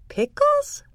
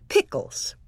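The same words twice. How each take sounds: First: High squeaky rising question; surprised. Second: Low, matter-of-fact question; a calm mother asking; mom voice. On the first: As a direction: squeak it out, amazed. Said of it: "I said". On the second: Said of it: "Then Mom said". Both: A narrator's reading.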